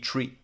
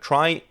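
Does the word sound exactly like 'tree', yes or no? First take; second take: yes; no. First: The word sounds exactly like tree. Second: The word sounds different from tree. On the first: This is the original pronunciation from retrieval. "the original correct pronunciation would be tree" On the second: This keeps it apart from an ordinary tree. "why do we call it trie? Mainly to distinguish it from the concept of a tree"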